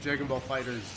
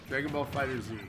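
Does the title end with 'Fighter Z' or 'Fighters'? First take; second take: Fighters; Fighter Z. First: The last word is said as 'Fighters'. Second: The last word is said as 'Fighter Z'. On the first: The speaker calls it wrong. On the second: The speaker calls it right.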